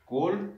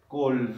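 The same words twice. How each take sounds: First: Said in the usual way. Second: "called" ending in an audible d; final D. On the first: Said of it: "Call, la D". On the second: Shown as a demonstration. Teacher showing the only difference, "called" with a final d. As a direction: close "called" on a voiced d, one syllable. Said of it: "la D".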